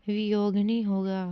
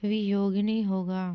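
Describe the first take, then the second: No difference in how they are said.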